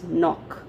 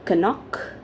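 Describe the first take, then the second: First: The k at the start is silent. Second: The k at the start is pronounced. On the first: The speaker calls it right. "it's knock, right?" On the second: The speaker calls it wrong. "do we pronounce it as knock? No"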